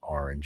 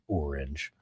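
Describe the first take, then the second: First: Orange is said with a New York pronunciation. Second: Orange is said with a non-New York pronunciation. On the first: "in New York we say orange" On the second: "we don't say orange"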